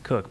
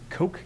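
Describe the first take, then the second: First: The vowel is short, like in 'book'. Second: The vowel is long, like in 'joke'. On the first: The speaker calls it wrong. "I don't think it's Cook" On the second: The speaker calls it right. "I believe, is the pronunciation there"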